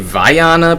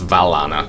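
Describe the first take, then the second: First: The double L sounds like a Y. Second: The double L is sounded as an L. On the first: The speaker calls it wrong. "I keep wanting to say Viana, pronounce the uh, the double L like uh, like a Y" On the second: The speaker calls it right. "in Italian it's pr- you pronounce the double L"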